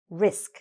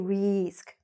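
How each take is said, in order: First: The vowel is kept very short. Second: The vowel is drawn out long. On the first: The speaker calls it right. "nice and short and sweet" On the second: The speaker calls it wrong. "Don't say risk. No"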